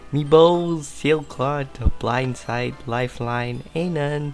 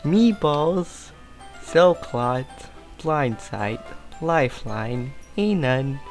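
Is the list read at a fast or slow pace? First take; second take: fast; slow. First: The list is read at a quick pace. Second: The list is read at a slow pace.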